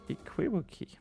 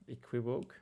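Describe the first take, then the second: First: The word ends with an extra vowel syllable. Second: The word ends without an extra vowel syllable. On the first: The speaker calls it wrong. "I'm probably mispronouncing that" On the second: The speaker calls it right. "Oh, equivoke. Okay"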